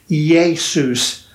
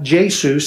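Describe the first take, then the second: First: The name begins with a Y sound. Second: The name begins with a hard J sound. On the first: The speaker calls it right. "it's Jesus. Iota, Eta. Don't sound like a J" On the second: The speaker calls it wrong. "is not Jesus"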